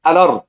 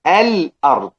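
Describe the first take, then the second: First: الأرض run together as "a-lard", no glottal stop; naql, hamza transferred. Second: الأرض split as "al-'ard", with a glottal stop after the l; hamza kept. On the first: Teacher showing Warsh's naql, الأرض as "alard". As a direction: slide the l of الأرض straight into the vowel. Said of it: "ورش يقرأ بالنقل". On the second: Teacher showing the others' reading, hamza kept in الأرض. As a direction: close the l of الأرض, then start the hamza cleanly. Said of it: "الباقون يقرؤون بإبقاء الحركة". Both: Shown as a demonstration.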